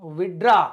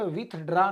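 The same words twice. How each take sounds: First: "विथड्रॉ" said as vid-draw, no TH; TH dropped. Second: "विथड्रॉ" with an audible TH before the D; wrong "विथड्रॉ", TH kept in the middle; TH pronounced. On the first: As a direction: say "विथड्रॉ" with the first syllable going straight into D. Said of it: "अब यहाँ पे विथड्रॉ नहीं बोलोगे". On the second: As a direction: mispronounce "विथड्रॉ", sounding the TH. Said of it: "विथड्रॉ नहीं बोलोगे". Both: Shown as a demonstration.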